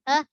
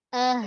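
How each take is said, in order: First: Ah broken off short; cut-off ah. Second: Ah with the h let through; flowing ah. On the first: Teacher shows the error to avoid, ah cut off. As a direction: cut the h off abruptly. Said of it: "Jangan bunyi terputus". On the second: Teacher shows correct rokhawah, ah flowing on. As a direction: let the h flow on after ah. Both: Shown as a demonstration.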